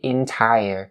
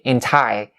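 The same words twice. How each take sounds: First: The final er sound is full, like tire. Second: The final er sound is weak and reduced. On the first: The speaker calls it right. "You have to say entire" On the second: The speaker calls it wrong. "underestimate the er sound at the end of the word entire"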